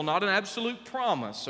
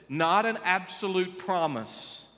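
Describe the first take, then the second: First: Said in the usual way. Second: Not an absolute promise, each word slowed and pressed; slow emphasis. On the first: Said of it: "It's a guiding principle". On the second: Shown as a demonstration. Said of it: "listen to this".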